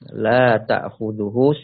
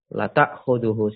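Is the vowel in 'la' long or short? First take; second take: long; short. First: The vowel in la is held long. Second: The vowel in la is cut short. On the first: He does not get drowsy. The speaker calls it right. "Allah tidak ngantuk dan tidak tidur" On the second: He truly gets drowsy. The speaker calls it wrong. "la-nya di situ kita baca pendek"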